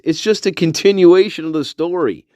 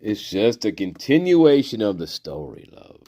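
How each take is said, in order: First: Higher, projected character voice; comic plug. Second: Soft reassurance. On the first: Pointing viewers to earlier shorts, higher projected voice. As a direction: announce it brightly to the audience. Promotes shorts, then repeats softer. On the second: Repeats it low and soft. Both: Pretend.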